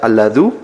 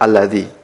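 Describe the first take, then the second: First: The word ends in the vowel u. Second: The word ends in the vowel i. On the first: The speaker calls it wrong. "tidak mungkin dibaca alladhu" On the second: The speaker calls it right. "senantiasa dibaca alladhi"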